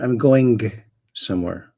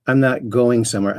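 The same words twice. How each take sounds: First: "going" with a hard G released at the end; over-articulate "going" as if it were "going-guh"; overpronounced final G. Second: Said in the usual way. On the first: Shown as a demonstration. Streamer showing viewers a speech habit, overpronounced G in "going". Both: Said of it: "overpronouncing, uh, the G on the end of words".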